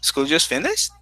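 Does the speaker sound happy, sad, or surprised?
surprised. It is said as a surprised question. The speaker cannot believe time passed so fast. "Really? Oh my goodness, time flies"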